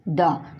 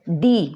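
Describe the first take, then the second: First: The word is said with a short 'uh' vowel. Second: The word is said with a long 'ee' vowel. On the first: The next word begins with a consonant. "तब इसका उच्चारण करेंगे द" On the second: The next word begins with a vowel. "इसका उच्चारण होगा दी"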